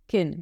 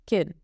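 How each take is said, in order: First: The word is said with a weak, reduced vowel. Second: The same.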